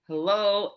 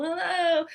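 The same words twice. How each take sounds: First: Louder call of hello into the desert; louder hello, a step short of her full shout; retold yell. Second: Much higher, louder ringing shout; full loud yell. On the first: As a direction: call out hello, lost and searching. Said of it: "And so then I yelled". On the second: Shown as a demonstration. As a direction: belt it to fill a gymnasium. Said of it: "I can make a very loud noise when I'm yelling".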